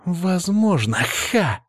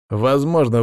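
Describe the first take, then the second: First: Higher mocking echo with scoffing ha; scornful parroting cry; mocking exclamation. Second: Said in the usual way. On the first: A narrator's reading. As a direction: throw his word back at him. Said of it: "воскликнула покрасневшая Софья".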